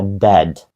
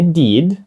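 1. Голосний — короткий звук 'eh'. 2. Голосний — довгий звук 'ee'. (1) "а dead" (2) "Не deed"

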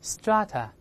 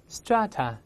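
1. 这是英式发音。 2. 这是美式发音。

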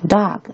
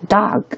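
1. 这个元音是美式的开口 a 音。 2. 这个元音是美式的开口 a 音。

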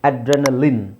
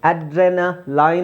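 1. ಕೊನೆಯ ಉಚ್ಚಾರಾಂಶ 'fin' ಜೊತೆ ಪ್ರಾಸವಾಗುತ್ತದೆ. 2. ಕೊನೆಯ ಉಚ್ಚಾರಾಂಶ 'fine' ಜೊತೆ ಪ್ರಾಸವಾಗುತ್ತದೆ. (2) "ಅಡ್ರೆನಾ ಲೈನ್ ಅಂತ ಹೇಳ್ತೀವಾ? ಇಲ್ಲ"

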